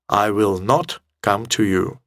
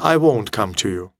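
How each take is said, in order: First: Will not is said as two full words. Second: Will not is contracted into one syllable. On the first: The refusal sounds sharp and a little angry. "Это резкое, четкое, однозначное, такое сердитое чуть-чуть даже высказывание" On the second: The refusal sounds ordinary and neutral. "Это обычная фраза"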